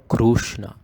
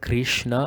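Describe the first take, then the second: First: A full clear U vowel follows the K R. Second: A full clear I vowel follows the K R. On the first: "or Krushna" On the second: "Don't make it as Krishna"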